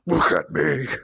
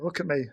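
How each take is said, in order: First: It is said at a very deep pitch. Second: It is said at a normal pitch.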